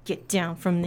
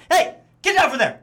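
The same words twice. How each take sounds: First: Quiet stern voice. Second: Short, clipped stern dad call; staccato dad voice. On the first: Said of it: "Uh, and Rachel". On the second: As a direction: snap each word like a dad. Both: Shown as a demonstration.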